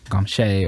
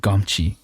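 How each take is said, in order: First: The name is said with a French-style pronunciation. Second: The name is said with an anglicized pronunciation. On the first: The speaker calls it right. "So maybe it's Gomche or something like that" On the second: The speaker calls it wrong. "it's probably mispronounced because it's French"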